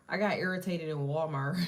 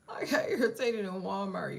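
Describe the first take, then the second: First: Said in the usual way. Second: Laughing through the words. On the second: Real, not acted. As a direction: laugh it out, embarrassed.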